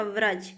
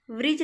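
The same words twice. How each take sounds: First: व्रज as "vraj", with an a; correct pronunciation. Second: व्रिज as "vrij", with an i; wrong pronunciation. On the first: Teacher correcting students, व्रज as "vraj". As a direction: put a short a in व्रज. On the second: Teacher showing students the error, व्रिज as "vrij". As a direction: put a short i in व्रिज. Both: Shown as a demonstration. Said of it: "व्रिज नहीं होता".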